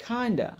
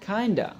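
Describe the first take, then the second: Both takes have the same delivery.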